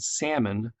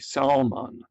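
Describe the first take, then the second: First: The l sound is silent. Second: The l sound is pronounced. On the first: The speaker calls it right. "instead of saying salmon" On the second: The speaker calls it wrong. "more like it's spelled"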